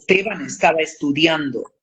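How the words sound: The s sounds before consonants are fully pronounced. "en neutro es Esteban estaba estudiando, la S siempre delante"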